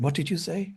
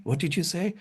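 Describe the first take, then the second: First: Mock puzzled question, pitched higher; puzzled asking back. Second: Repeated puzzled query, pitched higher and a bit softer; puzzled asking back. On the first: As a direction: imitate Detroit locals who couldn't catch his accent. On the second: Retold or imitated. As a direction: echo the locals asking him to repeat. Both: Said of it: "they said".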